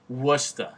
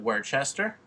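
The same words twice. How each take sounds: First: "Worcester" said "Wuster"; Boston-style "Worcester"; local pronunciation. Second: "Worcester" read as "Wor-chester" as spelt; spelled-out reading. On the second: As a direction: say "Worcester" as the letters suggest. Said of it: "How do you say that?". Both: Shown as a demonstration.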